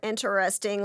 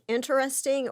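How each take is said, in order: First: It sounds skeptical and quietly judgmental. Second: It sounds sincere and genuinely curious. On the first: The speaker is secretly judging the other person. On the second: The speaker finds it truly interesting.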